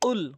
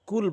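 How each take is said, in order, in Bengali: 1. এটি জিহ্বার গোড়ার গভীর q ধ্বনি দিয়ে শুরু হয়। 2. এটি হালকা সামনের k ধ্বনি দিয়ে শুরু হয়। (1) "কফটি যদি জিহ্বার গোড়া উপরে তালু থেকে উচ্চারণ করেন" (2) "অধিকাংশ লোক কুল বলে"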